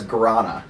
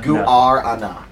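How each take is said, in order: First: The u and a merge into one sound. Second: The u and a are two separate vowels. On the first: "We typically refer to it as Guarana" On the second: "Instead of making the U and the A one sound, you make two different vowel sounds"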